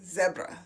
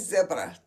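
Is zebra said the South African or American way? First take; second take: South African; South African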